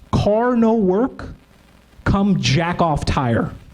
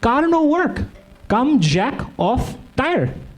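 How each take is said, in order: First: It is read in the speaker's normal voice. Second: It is read with a put-on foreign accent.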